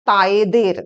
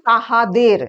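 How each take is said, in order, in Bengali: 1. মাঝের হ ধ্বনিটি সম্পূর্ণভাবে লোপ পায়। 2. মাঝের হ ধ্বনিটি স্পষ্টভাবে উচ্চারিত হয়। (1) "হ উচ্চারিত হয় না" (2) "যেমন তাহাদের"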